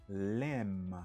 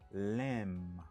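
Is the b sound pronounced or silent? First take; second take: silent; silent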